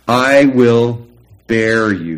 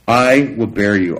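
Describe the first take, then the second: First: Each word slow and heavy on "I will bear you"; slow weighty emphasis. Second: Said in the usual way. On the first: Shown as a demonstration. Preacher stressing God's promise, slow and heavy. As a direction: lean hard into "I will bear you", slowly. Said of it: "he says". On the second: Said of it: "verse read, then repeated slowly".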